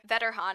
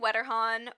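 First: The name is pronounced in a German way. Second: The name is pronounced in an English way.

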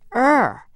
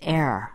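First: The vowel sounds like the one in 'her'. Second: The vowel sounds like the one in 'air'. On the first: This is the form a usage guide recommends. "the correct pronunciation is R" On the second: This is the form many people keep using. "some of us are going to stick with err"

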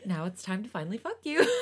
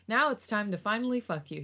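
First: It is said in a put-on character voice. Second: It is read in the speaker's normal reading voice.

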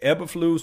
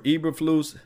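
First: The name begins with an 'Eb' sound. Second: The name begins with an 'Eve' sound. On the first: "Is it Eb" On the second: "or Eve?"

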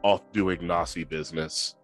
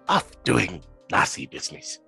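First: It is read in the speaker's normal voice. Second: It is said in Chips's put-on character voice.

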